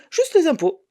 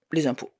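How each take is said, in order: First: Exasperated disbelief. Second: Said in the usual way. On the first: A narrator's reading. Narrator finding only taxes drained her account, exasperated. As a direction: pitch jumps way up on "Juste les impôts", exasperated. Discovers the tax bill.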